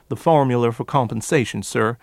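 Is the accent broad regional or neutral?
broad. A broad regional accent with added R sounds. "the forced R's in the formula, and additional R's as at the end of that word"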